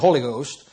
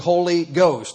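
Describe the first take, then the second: First: The two words are run together as one. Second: The two words are said clearly apart. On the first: This is how some other groups say it. "We don't say Holy Ghost" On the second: This is how this church says it. "Now we make two words out of it"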